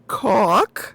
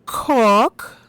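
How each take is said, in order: First: Cork with a crying rise at the end; "Cork" loud with a whiny rising end; mock pronunciation. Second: Cork with a rising drawn-out vowel; "Cork" said loud with a questioning rise; mock pronunciation. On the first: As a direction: wail "Cork" upward like a whimper. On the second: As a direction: stretch and lift "Cork" as a sound test. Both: Shown as a demonstration.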